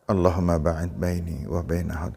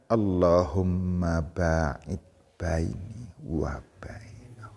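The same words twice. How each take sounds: First: It is recited at a moderate, ordinary pace. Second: It is recited very slowly and drawn out. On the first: The speaker calls it right. "Dibaca tidak terlalu pelan, tidak terlalu cepat, biasa" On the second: The speaker calls it wrong. "Jangan dibaca"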